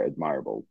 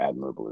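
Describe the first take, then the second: First: "admirable" said as ad-MIRE-able; non-American pronunciation. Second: "admirable" said as AD-mer-uh-bul; American pronunciation. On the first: Real, not acted. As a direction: stress the middle of "admirable", like "admire". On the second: Shown as a demonstration. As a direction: stress the first syllable of "admirable", American style. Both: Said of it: "as Americans would say".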